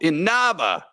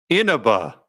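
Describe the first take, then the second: First: The stress is on the second syllable. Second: The second syllable is not stressed.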